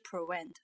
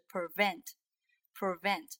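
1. 中间的辅音听起来像W。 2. 中间的辅音听起来像V。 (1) "不是prevent" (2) "是prevent"

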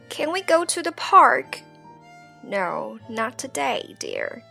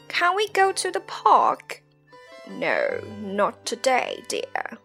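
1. 'not'中的元音是开口的'ah'音。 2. 'not'中的元音是圆唇的'o'音。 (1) "在美音" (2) "在英音"

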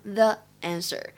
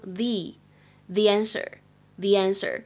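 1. 'The' 要发成短音 uh 元音。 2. 'The' 要发成长音 ee 元音。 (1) "所以不能读成the answer" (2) "在这里呢应该读成the answer，因为后面这个单词呢是元音素来开头"

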